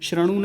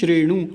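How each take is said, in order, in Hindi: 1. पहला स्वर छोटा a है। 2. पहला स्वर e है। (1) "श्रणु नहीं" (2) "श्रणु नहीं श्रेणु"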